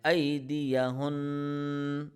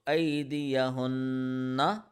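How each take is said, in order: First: The final vowel ending is dropped. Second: The final vowel ending is pronounced. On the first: The reciter stops on this word. "this is the stopping mode" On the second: The reciter continues without stopping.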